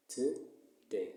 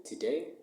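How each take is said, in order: First: "today" split in two, to - day; syllable by syllable. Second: Said in the usual way. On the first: Shown as a demonstration. Teacher splits word into two syllables.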